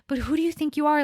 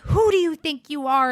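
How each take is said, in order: First: It is said softly, like a concerned friend. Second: It is said harshly and aggressively.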